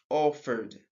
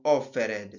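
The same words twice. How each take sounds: First: The word ends with a plain d sound. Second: The ending is said as an extra syllable. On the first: The speaker calls it right. "ça donne un seul son... on ajoute le D sound" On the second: The speaker calls it wrong. "et non"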